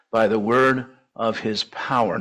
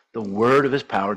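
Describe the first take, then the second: First: Said in the usual way. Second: Word leaned on, the rest of the phrase lighter; stress on word. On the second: Shown as a demonstration. Preacher repeating the verse, stressing word. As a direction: hit the word word and let power fall away. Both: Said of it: "Notice the emphasis on word".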